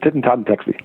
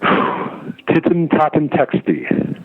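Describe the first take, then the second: First: The name runs together as one unbroken word. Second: The name is split into separate parts with breaks. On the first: "One word, though" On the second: "I broke it up a little bit"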